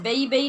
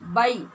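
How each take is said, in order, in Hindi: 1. स्वर बंद ध्वनि के साथ बोला जाता है। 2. स्वर खुली ध्वनि के साथ बोला जाता है। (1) "बई बई नहीं करना" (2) "आवाज़ को खोल कर अदा करना है"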